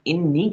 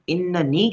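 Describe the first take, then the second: First: The word is short, with two syllables. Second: The word is longer, with three syllables. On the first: It is a plain statement. "ये एक सिंपली tone में हम बात कर रहे हैं" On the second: It puts extra emphasis on the statement. "हम उसके ऊपर ज़्यादा एम्फसिस डाल रहे हैं"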